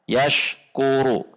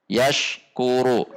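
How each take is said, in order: The two takes are said the same way.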